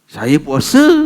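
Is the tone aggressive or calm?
aggressive. It is said in a harsh, aggressive tone. The speaker is ready to fight. The speaker calls it wrong. "jangan cakap saya puasa. Ha, bukan gitu"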